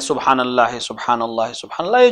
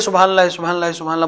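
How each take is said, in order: First: It is said slowly and calmly. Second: It is said quickly and rushed. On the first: The speaker calls it right. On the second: The speaker calls it wrong.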